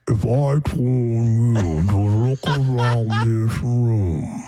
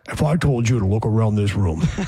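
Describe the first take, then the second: First: It is said very slowly, at quarter speed. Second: It is said slowly, at half speed.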